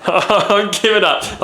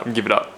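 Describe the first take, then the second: First: Higher, slow, through laughter; laughing. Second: Said in the usual way. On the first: Real, not acted. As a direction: give up while cracking up. Repeats it while laughing.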